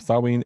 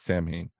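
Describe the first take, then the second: First: The word is said with its Gaelic pronunciation. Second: The word is said with a common anglicized pronunciation. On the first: The speaker calls it right. "Samhain is a Gaelic word" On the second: The speaker calls it wrong. "often mispronounced by many people as"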